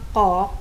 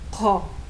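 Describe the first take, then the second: First: The k is plain, with no puff of air. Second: The k has a strong puff of air. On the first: The speaker calls it wrong. "Imbis na sabihin mo lang ko" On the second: The speaker calls it right. "pa aspirated, merong buga ng hangin na nanggagaling dito sa lalamunan mo"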